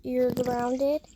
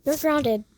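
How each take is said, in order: First: "You're grounded" repeated firmly, "grounded" rising at the end; stern parent saying it a second time. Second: Loud and sharp, "grounded" falling hard; strict parent laying down the law; stern shout. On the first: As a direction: repeat it so the kid can't miss it. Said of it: "I said". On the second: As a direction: bark the punishment at the kid. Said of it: "I said, "You're grounded". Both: Acted.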